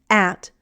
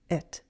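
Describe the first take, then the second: First: The vowel is a full short a sound. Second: The vowel is reduced to a weak sound. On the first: "I don't use the full short a sound" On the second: "I reduce it"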